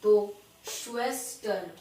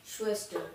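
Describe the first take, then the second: First: श्वेस्टर stretched slow and louder, the श drawn out long; slow modelled pronunciation. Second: Said in the usual way. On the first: Shown as a demonstration. German teacher models sister word, slow and louder. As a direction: model श्वेस्टर slowly, leaning on the opening sh. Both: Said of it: "तो वो श pronounce होता है".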